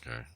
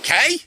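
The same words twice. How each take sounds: First: It sounds flat and unenthusiastic. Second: It sounds lively and enthusiastic.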